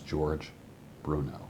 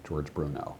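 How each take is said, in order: First: A slight pause separates the two names. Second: The two names run together without a pause. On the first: The name is heard as two separate words. The speaker calls it right. "My name is two words" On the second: The name sounds like a single word. The speaker calls it wrong. "it sounds like one word"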